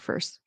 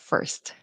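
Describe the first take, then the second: First: The final T sound is dropped. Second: The final T sound pops clearly. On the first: The speaker calls it wrong. "I hear Spanish speakers say fur or first instead of first" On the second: The speaker calls it right. "You really want that T to pop"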